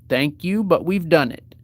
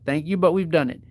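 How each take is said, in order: First: The phrase is said at a slower pace. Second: The phrase is said at a faster pace.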